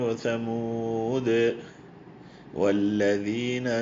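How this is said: It stops with a pause after Thamood.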